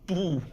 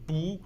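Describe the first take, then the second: First: "不" as falling fourth tone bù. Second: "不" as rising second tone bú. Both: Shown as a demonstration. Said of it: "不 has two tones, which is".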